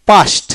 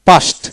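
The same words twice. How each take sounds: The two takes are said the same way.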